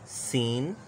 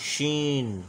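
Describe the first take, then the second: First: सीन with a plain s, not sh; soft s sound. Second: शीन with a full sh at the start; hard sh sound. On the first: Teacher contrasting the letters for students, soft s in सीन. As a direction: say सीन with a clean hissed s. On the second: Teacher contrasting the letters for students, hard sh in शीन. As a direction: say शीन with a strong sh. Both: Shown as a demonstration. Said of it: "और इसकी hard voice जो है".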